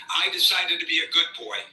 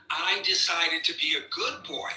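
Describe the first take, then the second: First: Said in the usual way. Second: Sarcastic. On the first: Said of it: "But he did say". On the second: Retold or imitated. Host mocking the president's own words, sarcastic. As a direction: sneer the quote as if it's ridiculous. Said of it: "That's my sarcasm".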